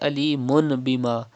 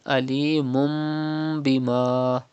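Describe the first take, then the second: First: The nunation is said as a plain n. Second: The nunation becomes a nasalized m. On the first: The speaker calls it wrong. "Do not say alimun bima" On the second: The speaker calls it right. "First change tanween with mim and then do gunna"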